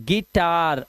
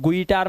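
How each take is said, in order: First: It begins with a plain 'gi' sound. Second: It begins with a 'gwi' sound. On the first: The speaker calls it right. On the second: The speaker calls it wrong.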